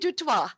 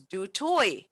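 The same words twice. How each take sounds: First: The surname has its international pronunciation. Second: The surname has its Cape Flats pronunciation. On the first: This is easier for people from other countries. "when I'm traveling abroad, I say" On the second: This is how the family says it at home. "growing up in Cape Town on the Cape Flats, I was raised knowing my surname is"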